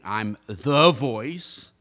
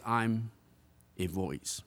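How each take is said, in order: First: THE drawn out long and loud; heavy, stretched emphasis on THE; stress on THE. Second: Said in the usual way. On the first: Shown as a demonstration. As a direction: make THE big and self-important, very slowly. Contrasts "the" with "a.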